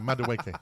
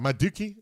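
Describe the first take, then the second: First: The name is said as Madueke. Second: The name is said as Maduki. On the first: The speaker calls it right. "no, Madueke" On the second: The speaker calls it wrong. "He calls him like Maduki"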